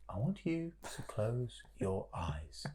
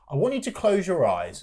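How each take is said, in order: First: It is read in a calm, soothing yoga voice. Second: It is read in an ordinary voice.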